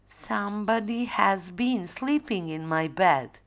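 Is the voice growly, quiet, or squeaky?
quiet. The voice is soft and quiet. Mother Bear is speaking.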